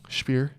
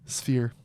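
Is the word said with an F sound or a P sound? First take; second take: P sound; F sound. First: The word is said with a plain P sound. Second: The word is said with an F sound. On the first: The speaker calls it wrong. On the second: The speaker calls it right.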